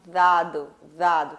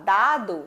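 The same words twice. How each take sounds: First: Dado said as ðado, tongue between teeth. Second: Dado with a normal Portuguese d; plain dado. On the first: Teacher showing dado with a voiced th sound. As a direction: soften the d of dado into a voiced th, lower. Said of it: "você fala dado". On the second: Teacher contrasting the two ways of saying dado, plainly. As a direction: say dado the ordinary Brazilian way. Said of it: "ao invés de você falar dado". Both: Shown as a demonstration.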